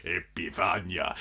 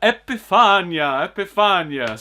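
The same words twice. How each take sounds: First: Said in the usual way. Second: Higher, louder, drawn-out "Epifania"; Nosferatu impression. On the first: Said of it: "Sorry, that's my". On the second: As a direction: stretch out "Epifania" like a ghoul. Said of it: "my Nosferatu impression".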